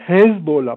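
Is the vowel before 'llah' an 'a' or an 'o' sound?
O. The vowel before 'llah' is an 'o' sound. This is the Iranian pronunciation. "c'est en prononciation iranienne"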